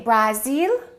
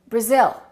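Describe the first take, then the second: First: The first syllable has a full vowel. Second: The first syllable has a reduced vowel. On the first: The speaker calls it wrong. "What do we say? Brazil?" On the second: The speaker calls it right. "No, this is no longer a, it's a"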